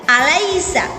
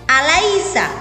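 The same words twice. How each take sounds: Both takes have the same delivery.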